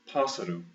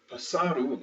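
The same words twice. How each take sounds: First: PÁSSARO as PAS-sa-ro, first A stressed; first-syllable stress. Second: PÁSSARO wrongly as pas-SA-ro; second-to-last stress. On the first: Teacher showing what the accent does, first-syllable stress. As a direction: say "pássaro" with the weight up front on PAS. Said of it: "is where the accent is". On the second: Teacher showing how it would be without accent, middle stress. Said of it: "like it would be originally". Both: Shown as a demonstration.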